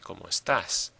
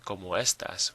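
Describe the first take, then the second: First: The last word is stressed on its last syllable. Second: The last word is stressed on its first syllable. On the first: The speaker calls it right. "we say como estás. We pronounce it a little bit differently" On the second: The speaker calls it wrong. "we don't say como estas"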